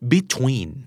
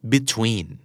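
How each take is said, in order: No difference in how they are said.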